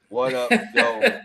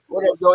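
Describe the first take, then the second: First: The greeting sounds sad and low in energy. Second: The greeting sounds confident and full of energy. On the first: The speaker calls it wrong. "that's like a sad what up though" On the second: The speaker calls it right. "You gotta just say it with your chest"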